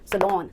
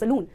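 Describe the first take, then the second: First: The second syllable has a short 'lon' vowel. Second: The second syllable has a long 'loon' vowel. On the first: The speaker calls it right. "सलॉन सलॉन ना कि सलून" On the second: The speaker calls it wrong. "ना कि सलून"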